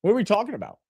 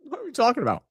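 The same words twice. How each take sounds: First: Puzzled question. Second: Laughing disbelief. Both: Real, not acted.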